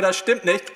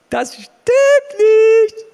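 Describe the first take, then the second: First: Said in the usual way. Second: High, loud and very slow; slow shout. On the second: Real, not acted. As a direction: drag it out at full shout. Final repeat, shouted slowly.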